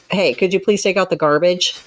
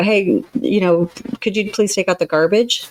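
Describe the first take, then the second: First: Curt, loaded asking; pointed request. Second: Softer request. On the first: A counselor shows a chore request with hidden reproach, pointed. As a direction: ask with an edge of blame. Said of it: "seems to imply something more". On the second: A counselor shows how a polite chore request sounds, soft. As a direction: ask kindly, not demanding. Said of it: "in a softer tone". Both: Shown as a demonstration.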